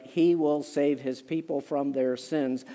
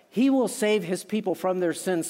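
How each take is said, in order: First: He leaned on, lower and slower, the rest falling away; stress on he. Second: Said in the usual way. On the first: Shown as a demonstration. Preacher stressing to the church that He saves, stress on He. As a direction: hit He as the one who saves. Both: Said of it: "The he is emphatic".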